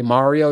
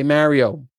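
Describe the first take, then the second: First: "Mario" with an open "ah" in the first syllable; "Mario" with a first vowel as in "father"; MAH-rio pronunciation. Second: "Mario" with a flat "a" in the first syllable; "Mario" with a first vowel as in "marry"; MARE-ee-oh pronunciation. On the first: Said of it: "If you say Mario". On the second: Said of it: "if you say Mario". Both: Shown as a demonstration.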